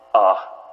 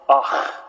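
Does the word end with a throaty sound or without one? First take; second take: without; throaty. First: It ends without a throaty ch sound. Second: It ends with a harsh throaty ch sound. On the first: The speaker calls it wrong. "We're not going to go ah" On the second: The speaker calls it right. "We're going to go ah"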